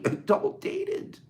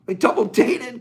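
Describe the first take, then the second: First: "dated" drawn out slow, pitched much higher, rising; stress on dated. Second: Said in the usual way. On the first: Shown as a demonstration. To the group, marveling at the couple: "dated" stretched high and slow. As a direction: lean up and stretch "They double dated".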